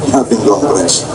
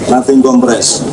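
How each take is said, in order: The two takes are said the same way.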